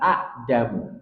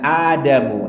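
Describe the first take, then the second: First: A short vowel is followed by a glottal stop. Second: The first vowel is lengthened into a long vowel. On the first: This is the original form with two hamzahs. "aslinya adalah Adamu" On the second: The lost hamzah is replaced by lengthening. "Contohnya Adamu"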